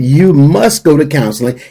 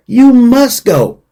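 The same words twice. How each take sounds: First: Said in the usual way. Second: "you must go" raised high and slowed, each word pressed; stress on must go. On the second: Shown as a demonstration. Urging caretakers to go to counseling, "you must go" stressed high and slow. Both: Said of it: "I'm gonna say it again".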